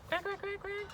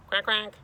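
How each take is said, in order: First: Tiny, very high soft quacks; soft squeaky duckling chatter; little duckies. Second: Put-on high, loud boyish quacks; imitation duck, raised pitch; boy quacking. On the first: Acted. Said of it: "the little duckies go". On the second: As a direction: quack back like a boy copying ducks. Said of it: "Bobby quacks too".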